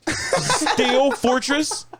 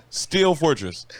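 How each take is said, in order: First: Drawn-out high laughing question; incredulous. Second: Said in the usual way. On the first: Real, not acted. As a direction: stretch the name in disbelief. Incredulous repeat.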